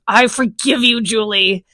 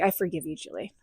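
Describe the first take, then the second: First: It is said in an angry voice. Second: It is said laughingly, in an amused voice. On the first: "I said it in an angry voice" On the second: "And then I laughed and I was like"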